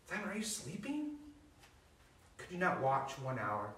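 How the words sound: It is said in a gentle, compassionate tone.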